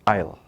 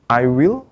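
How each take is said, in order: First: The words are squeezed into one quick syllable. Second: Both words are said in full.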